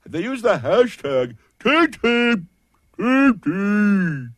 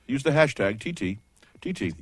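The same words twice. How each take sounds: First: Bizarre creepy voice, high and slow; freaky weird. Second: Easy, pleasant radio voice. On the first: Host demonstrating hashtag voices, freaky weird. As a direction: squeal it out slowly like a creepy weirdo. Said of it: "freaky weird". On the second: Host showing the normal hashtag plug, very pleasant. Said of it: "very pleasant". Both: Shown as a demonstration.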